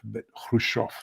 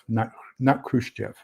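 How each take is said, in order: First: The name begins with a breathy H sound. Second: The name begins with a hard K sound. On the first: The speaker calls it right. "you pronounce the H and not the K" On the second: The speaker calls it wrong. "most Americans pronounce the K and, and not the H"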